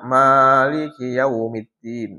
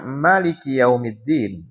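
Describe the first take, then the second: First: The first vowel of Maliki is long. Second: The first vowel of Maliki is short. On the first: "ma-nya panjang" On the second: "Ada yang baca ma-nya pendek"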